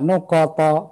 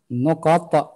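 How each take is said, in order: First: The final t carries a full added a vowel. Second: The final t ends with a light echoing bounce. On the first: The speaker calls it wrong. "bukan saya sengaja nuqat, bukan begitu bacanya" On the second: The speaker calls it right. "karena ada qalqalah, ada huruf qalqalah, ta"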